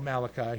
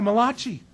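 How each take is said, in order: First: The name is said with a plain English pronunciation. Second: The name is said with an Italian-sounding pronunciation. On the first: The speaker calls it right. "No, He's not an Italian" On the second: The name is joked to belong to an Italian. The speaker calls it wrong. "the Italian guy"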